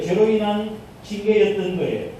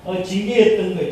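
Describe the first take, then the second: First: 죄로 punched as the key word; stress on 죄로. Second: Said in the usual way. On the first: Shown as a demonstration. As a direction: lean hard on 죄로 before 인한 징계. (죄로에 힘을 주어 강조)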